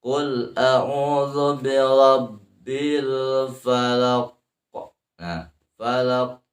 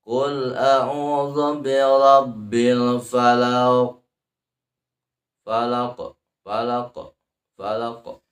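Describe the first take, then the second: First: Slow chant, the q of "falaq" held, then bounced; qalqalah kubro. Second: Slow chant, "falaq" bounced off too lightly at the end; wrong qalqalah. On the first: Teacher models the correct echo, "falaq" held then bounced. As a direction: close on "falaq", wait, then release the q. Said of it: "ada sidah di sana". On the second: Teacher shows how not to bounce, unheld "falaq". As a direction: release the q of "falaq" without holding it first. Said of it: "memantulkannya jangan begini". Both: Shown as a demonstration.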